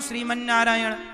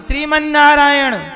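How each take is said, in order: First: The phrase is said softly, close to the ear. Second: The phrase is said much more loudly. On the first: "उनके पास बोले कान में" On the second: "हमने और जोर से बोला"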